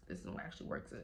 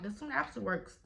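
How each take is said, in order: First: Whispered aside. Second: Said in the usual way. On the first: Shown as a demonstration. Showing viewers the new brace, whispered aside. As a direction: repeat it in a low hush.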